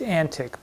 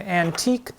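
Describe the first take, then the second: First: "antic" said AN-tik, stressed on the first syllable; "antic" as AN-tik, not an-TEEK; period pronunciation. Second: "antique" said an-TEEK, stressed on the second syllable; "antique" with a long ee ending; mispronounced antique. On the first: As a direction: say "antic" with a short final ick. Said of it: "which apparently was pronounced". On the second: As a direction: say "antique" like old furniture, an-TEEK. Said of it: "I mispronounced something". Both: Shown as a demonstration.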